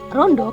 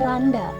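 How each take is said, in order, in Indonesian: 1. Kedua vokal diucapkan sebagai o. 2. Kedua vokal diucapkan sebagai a. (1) "vokal yang di Jawa O" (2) "kalau di bahasa Ngapak di, disebutnya itu jadi randa"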